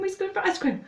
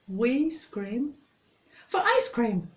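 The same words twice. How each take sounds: First: It is said very fast, nearly tripping up. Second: It is said at a moderate, normal speed.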